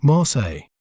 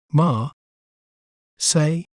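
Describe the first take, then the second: First: "Marseille" joined as mar-say, falling at the end; "Marseille" as one smooth word, no L sound; whole-word pronunciation. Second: "Mar-, say" with a long pause between syllables; "Mar-" alone, then "say"; broken into syllables. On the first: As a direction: say "Marseille" in one piece, L's silent. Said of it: "Both the L's are silent". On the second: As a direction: break "Marseille" into two separate beats, mar... say. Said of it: "breaking down a word". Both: Shown as a demonstration.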